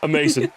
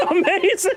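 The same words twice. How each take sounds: First: Said in the usual way. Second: Laughing. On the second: Real, not acted. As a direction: gush through a laugh.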